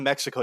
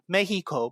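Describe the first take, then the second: First: Mexico is pronounced the ordinary English way. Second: Mexico is pronounced the Spanish way.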